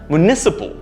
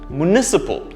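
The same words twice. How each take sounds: First: The second syllable is stressed. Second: The second syllable is stressed.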